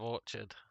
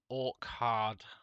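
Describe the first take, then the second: First: It is said as one word, orchard. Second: It is split into two words, orc and hard. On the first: The name is read as a fruit garden. "instead of Orchard" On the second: The name is read as a hardy orc. "I used to call him Orc Hard"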